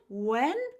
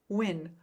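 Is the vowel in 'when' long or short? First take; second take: long; short. First: The vowel is drawn out and long. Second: The vowel is short and quickly said. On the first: "when can have the long um eh sound" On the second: "when I speak quickly"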